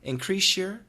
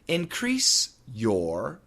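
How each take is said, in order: First: An sh sound comes before 'your'. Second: A plain s sound comes before 'your'.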